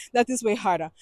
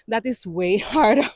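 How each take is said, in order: First: Said in the usual way. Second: Laughing through the words. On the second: Real, not acted. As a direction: chuckle on harder. Laughs mid-phrase.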